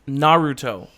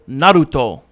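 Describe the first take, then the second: First: It is said with an English accent. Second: It is said with a Japanese accent. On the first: "You don't have to say it with the accent, but you say it right" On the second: "it's with the accent. They go Naruto. That's how you say it in Japanese"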